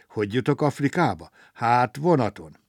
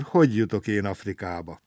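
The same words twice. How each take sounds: First: Livelier question with a pleased answer; cheered up. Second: Mildly woeful, level and subdued question; sighing question. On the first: Traveller suddenly thinks of the train, cheered up. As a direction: perk up and answer yourself. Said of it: "s rögtön vidámabb lett". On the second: Stranded traveller wonders about Africa, sighing question. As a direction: wonder it with a touch of a sigh. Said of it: "sóhajtozott Gombóc Artúr". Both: A narrator's reading.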